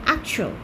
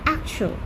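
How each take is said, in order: The two takes are said the same way.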